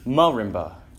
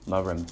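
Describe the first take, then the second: First: The stress is on the first syllable. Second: The stress is on the last syllable.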